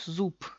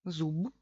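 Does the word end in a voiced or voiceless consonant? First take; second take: voiceless; voiced. First: The final consonant is voiceless, sounding like p. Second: The final consonant is voiced, a clear b. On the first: "decimos zup" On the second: "en vez de decir zub, zub, que es mucho esfuerzo"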